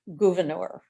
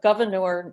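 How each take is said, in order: First: It is said with a French-sounding pronunciation. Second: It is said like the English word governor. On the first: It names the man. "his mother had his wanted his name pronounced Gouverneur" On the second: It names the town. "even though we have Gouverneur New York"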